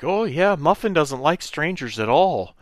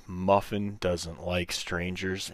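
First: High, louder sing-along agreement; mock high-voiced aunt; imitated aunt. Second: Slow, quieter disbelieving repeat; retold incredulous echo. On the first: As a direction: mimic an aunt chiming in, pitched up high. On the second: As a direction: imitate a buddy echoing it slowly, word by word. Buddy echoes the line in disbelief.

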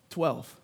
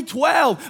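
First: Dramatic hush. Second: Louder answer fired back to the crowd; excited call-back. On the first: Dramatic answer to his own question. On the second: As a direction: punch Twelve like a cheer. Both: Shown as a demonstration.

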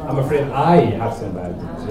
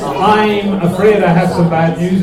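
First: Second "I" picked out, the rest falling lower; stress on I. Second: "afraid" drawn out and leaned on, slow and loud; stress on afraid. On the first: Teacher contrasting two emphases for a class, stress on "I". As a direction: hit "I" before "have", then drop away. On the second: Teacher contrasting two emphases for a class, stress on "afraid". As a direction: stretch the word "afraid" to make it stand out. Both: Shown as a demonstration. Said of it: "It's totally different to".

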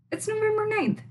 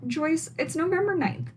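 First: "November" pushed much higher; emphatic repeat. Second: Higher, telling Joyce it is obviously fine; a playful scolding; exasperated reminder. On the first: Host insisting to Joyce, much higher and emphatic. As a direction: drive "November" up in mock disbelief. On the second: Host scolding Joyce about the date, higher and exasperated. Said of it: "And also". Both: Real, not acted.

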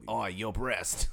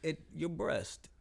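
First: Very slow mock Australian "your breast"; Australian accent. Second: Very slow mock British "your breast"; UK accent. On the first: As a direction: drawl "breast" the Aussie way. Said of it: "No, that's Australian". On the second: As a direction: draw out "breast" like a smarmy Brit. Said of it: "it might not be U K".

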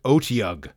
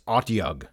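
First: "Otyug" with long o in three syllables; OH-tee-ug, the habitual version; mistaken pronunciation. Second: "Otyug" with short o and two syllables; clipped OT-yug, not oh-tee-ug; corrected pronunciation. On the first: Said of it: "I always pronounced it". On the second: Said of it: "it is Otyug". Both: Shown as a demonstration.

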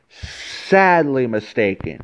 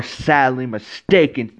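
First: "Sadly mistaken" repeated slowly, every syllable leaned on; slow emphatic repeat. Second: Said in the usual way. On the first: Real, not acted. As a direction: drag it out to drive the point home.

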